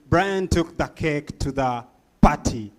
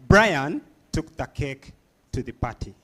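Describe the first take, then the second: First: The word party is stressed. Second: The word Brian is stressed.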